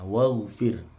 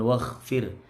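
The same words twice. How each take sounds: First: The middle consonant is a clean voiced gh. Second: The middle consonant sounds like a harsh kh. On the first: The speaker calls it right. "Bersih ya" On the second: The speaker calls it wrong. "jangan waghfir. Bukan kha ini"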